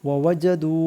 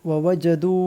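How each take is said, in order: No difference in how they are said.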